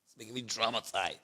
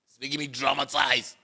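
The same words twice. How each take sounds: First: Low, soft fading repeat; quiet. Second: Said in the usual way. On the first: Real, not acted. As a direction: let it drop to a near murmur. Repeats lament, then fades.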